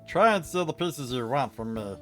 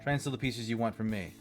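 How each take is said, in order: First: It is read in a put-on high voice. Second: It is read in a normal speaking voice.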